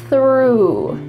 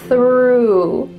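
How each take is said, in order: Both takes have the same delivery.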